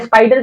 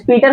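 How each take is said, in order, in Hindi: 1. पहला स्वर 'eye' ध्वनि है। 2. पहला स्वर 'ee' ध्वनि है। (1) "लेकिन ये स्पाइडर कैसे हो गया" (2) "ये तो होना चाहिए स्पीटर होना चाहिए था"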